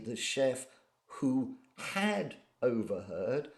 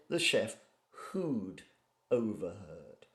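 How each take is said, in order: First: The word had is said in full. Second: The word had is contracted onto who. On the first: The speaker calls it wrong. "I didn't say" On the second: The speaker calls it right. "I said"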